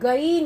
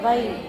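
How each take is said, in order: First: The first sound is a plain g. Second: The first sound is gargled in the throat. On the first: The speaker calls it wrong. "கைன் அப்படின்னு சொல்லிடுறோம். அப்படி சொல்லக்கூடாது" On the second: The speaker calls it right. "லைட்டா கொலாப்ஸ் பண்ணி உமிழ் நீரோட கலந்து"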